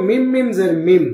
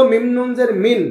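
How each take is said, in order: First: মিম said in place of মিন, ending m with nasal hum; nun turned to mim. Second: মিন spelled with the nun sound, ending n; nun as written. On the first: Teacher shows students nun becoming mim, with ghunna. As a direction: close the lips on মিম, humming the m. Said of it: "নুনটাকে মিম বানাতে হবে". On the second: Teacher shows students the written nun, read as written. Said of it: "ছিল". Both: Shown as a demonstration.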